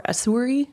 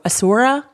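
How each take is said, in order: First: "Asuri" ending in an "ee" sound; alternative pronunciation. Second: "Asura" ending in an open "ah"; alternative pronunciation. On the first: Offering another guess at a character's name, "Asuri" ending in -ree. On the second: Guessing how a character's name is pronounced, "Asura" ending in -ra. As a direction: say "Asura" with a final -ra. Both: Shown as a demonstration. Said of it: "I think it's pronounced".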